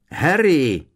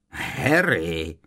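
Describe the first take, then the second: First: Loud, high cry of a name; urgent raised call. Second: Mocking drawn-out name; taunting echo of a cry; jeering mimicry. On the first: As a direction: shout to a friend behind a wall. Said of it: "zavolal znovu Ron". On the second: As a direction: mimic someone's call with a sneer. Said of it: "poškleboval se Kreb". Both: A narrator's reading.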